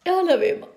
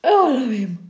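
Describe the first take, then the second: First: Said in the usual way. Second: Mock sob. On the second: Mock crying over a trivial police report. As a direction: fake crying, voice cracking.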